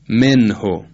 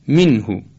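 First: The short i vowel has a Persian quality. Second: The short i vowel has an Arabic quality. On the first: The speaker calls it wrong. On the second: The speaker calls it right.

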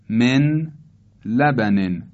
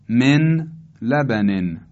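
The two takes are said the same way.

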